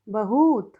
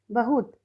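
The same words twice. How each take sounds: First: बहुत stretched to "bahooot"; misspelt reading. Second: Said in the usual way. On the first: Shown as a demonstration. Teacher reads the wrong column, बहुत drawn out as "bahoot". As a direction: lengthen the u of बहुत heavily. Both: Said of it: "सही और गलत".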